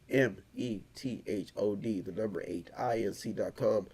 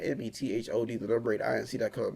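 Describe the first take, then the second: First: It is said slowly and deliberately. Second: It is said at a normal, quicker pace.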